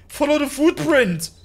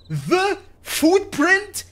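First: Said in the usual way. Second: FOOTPRINT drawn out very slowly, high and questioning; incredulous echo. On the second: Real, not acted. Player puzzles over the hint's single footprint, slow high incredulous question on FOOTPRINT. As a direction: query THE FOOTPRINT word by word, pitch jumping up.

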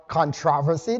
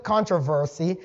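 First: Controversy stressed on the second syllable, TROV. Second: Controversy stressed on the first syllable, CON. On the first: Preacher offering the other pronunciation, controversy stressed on TROV. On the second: Preacher reading the great controversy aloud, controversy stressed on CON. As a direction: say controversy as CON-tro-ver-sy. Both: Shown as a demonstration. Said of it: "both pronunciations are correct".

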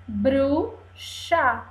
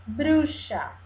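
First: BRU... XA, with a pause between; syllable by syllable. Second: Said in the usual way. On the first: Shown as a demonstration. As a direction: break "Bruxa" into two separate syllables. ("Bruxa" silabada, com pausa: bru... xa) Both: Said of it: "cortada em pedacinhos".

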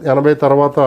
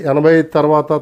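No difference in how they are said.

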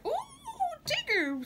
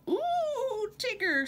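First: Much higher, thrilled squeal; bigger squeal. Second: High, excited squeal; little joey squeals as they bounce up. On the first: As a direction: squeal even higher with glee. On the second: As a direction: squeal with delight. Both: A narrator's reading. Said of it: "squealed Roo".

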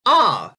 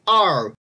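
First: R as a long open "ah"; British-style R, "ah"; non-rhotic R. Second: R with the r fully sounded; North American R. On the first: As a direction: say R as "ah", no r-sound. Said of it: "which is of course gonna be". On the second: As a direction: say R as "arr", tongue curled. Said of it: "in Canadian and American English". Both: Shown as a demonstration.

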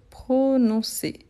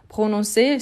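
First: "prononcer" slowly, in separate syllables; syllable-by-syllable dictation. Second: Said in the usual way. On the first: Shown as a demonstration. Teacher dictating prononcer as it is written, slow syllable-by-syllable delivery. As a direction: draw out each syllable of "prononcer".

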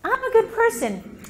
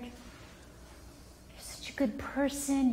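First: Put-on higher child voice, lightly done; a hint of a hopeful child; child self-affirming. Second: Slow, soft whispered reassurance; hushed loving parent; whispered praise. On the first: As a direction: let the kid believe it. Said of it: "help the child go". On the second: Shown as a demonstration. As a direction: whisper it like a secret comfort.

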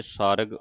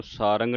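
First: ਸਾਰਗ with no nasal, r straight into g; correct pronunciation. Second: ਸਾਰੰਗ with a nasal ng before the final g; wrong pronunciation. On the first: Teacher showing the congregation the right reading, correct pronunciation. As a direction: say ਸਾਰਗ without any ng sound. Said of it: "ਠਿੱਪੀ ਤੋਂ ਰਹਿਤ". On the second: Teacher warning the congregation off a misreading, wrong pronunciation. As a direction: say ਸਾਰੰਗ with an added nasal second syllable. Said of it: "ਇਹਨੂੰ ਸਾਰੰਗ ਨਹੀਂ ਕਹਿ ਦੇਣਾ". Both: Shown as a demonstration.

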